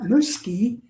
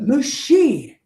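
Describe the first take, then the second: First: A K sound is pronounced in the middle. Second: No K sound is pronounced in the middle. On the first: The speaker calls it wrong. "Not muski" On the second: The speaker calls it right. "but mushi"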